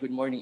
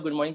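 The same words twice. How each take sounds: First: It is said slowly and calmly, with steady confidence. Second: It is said hurriedly and nervously, with hesitations. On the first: The speaker is confident. The speaker calls it right. "make sure you stand tall and then you try to speak slowly" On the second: The speaker lacks confidence. The speaker calls it wrong. "that shows that you are nervous"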